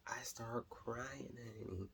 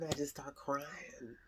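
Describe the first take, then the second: First: Slow, breathless whispered confession. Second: Said in the usual way. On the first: Shown as a demonstration. Telling viewers how babies move her, slow whisper. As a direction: let it fall to a slow whisper. Whispered repeat of crying line.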